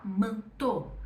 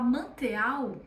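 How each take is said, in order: First: "manteau" as manto; French "eau" as o. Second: "manteau" as man-te-au; each vowel sounded; spelling read aloud; wrong reading. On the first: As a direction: end in a clean o. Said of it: "eu vou falar". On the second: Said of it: "em vez de eu falar". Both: Shown as a demonstration.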